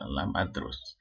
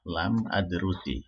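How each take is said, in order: First: The last word ends on a bare consonant. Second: The last word ends with an added i vowel. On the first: The phrase is said on its own. "karena ada lam maka dia su sukun" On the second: The phrase is joined to the following words. "kalau dibaca sambung dengan kalimat setelahnya, maka dia menjadi kasroh"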